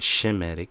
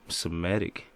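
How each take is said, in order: First: The word begins with an sh sound. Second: The word begins with a plain s sound. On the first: The speaker calls it right. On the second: The speaker calls it wrong.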